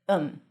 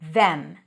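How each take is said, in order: First: It drops the th, sounding like um. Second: It has a th and a full e vowel. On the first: "sometimes you even drop the th. And then it sounds like um" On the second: "When it's stressed, it's pronounced with a voiced th, the, tongue out, then e, as in red"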